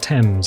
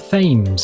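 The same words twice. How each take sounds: First: The word starts with a hard t sound. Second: The word starts with a soft th sound. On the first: The speaker calls it right. "hard T E M S" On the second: The speaker calls it wrong. "It is not the Thames"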